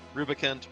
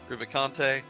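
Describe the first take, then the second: First: The name ends without a final vowel sound. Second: The name ends with a final vowel sound. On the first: "the Super Nintendo spellings and the way I mentally pronounce" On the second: "the more classic Italian Dante's Divine Comedy version"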